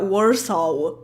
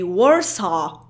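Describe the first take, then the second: First: It is pronounced with a Polish accent. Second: It is pronounced the standard English way. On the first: The speaker calls it wrong. "not Warsaw, because like almost every single Polish person will say Warsaw" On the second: The speaker calls it right. "you actually say Warsaw"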